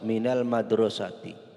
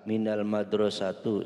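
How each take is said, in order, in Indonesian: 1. Kata terakhir berakhir dengan vokal i. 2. Kata terakhir berakhir dengan vokal u. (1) "maka huruf akhirnya dibaca kasroh"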